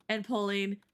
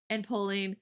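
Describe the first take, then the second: No difference in how they are said.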